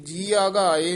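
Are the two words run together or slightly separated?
run together. The two words are run together. The speaker calls it wrong. "ਇਹ ਜੀਆ ਘਾਏ ਨਹੀਂ ਪਾਠ ਕਰਨਾ"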